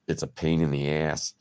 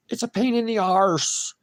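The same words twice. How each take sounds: First: Said in the usual way. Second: High, loud mock British accent; cheeky mock British, higher and louder. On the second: Shown as a demonstration. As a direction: put on a bad British accent. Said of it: "shit accent, but keep trying".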